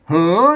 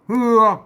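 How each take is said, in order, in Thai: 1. พยางค์นี้มีสระเออ 2. พยางค์นี้มีสระเอือ (1) "ภาษาไตลือไตยองเปิ้น" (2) "คนเมืองไตยวนอ่านว่า"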